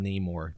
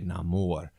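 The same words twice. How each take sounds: First: The name is pronounced in an English style. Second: The name is pronounced in a Latin style. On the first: This is how others in the film say his name. The speaker calls it wrong. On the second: This is how the character says his own name. The speaker calls it right.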